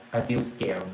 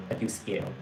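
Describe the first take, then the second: First: Said in the usual way. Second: Softer, scared. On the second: Retold or imitated. Yato admitting fear to Mr Sherman on the phone, much softer. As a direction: drop much softer on I feel scared, like a small frightened confession.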